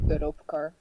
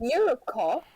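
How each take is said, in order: First: Low Dutch-accented pronunciation. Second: Questioning attempt at British pronunciation; British accent. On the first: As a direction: say it as a Dutch speaker would. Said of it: "how my Dutch self would say it". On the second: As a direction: try it in a British accent, rising at the end. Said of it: "That's British". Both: Shown as a demonstration.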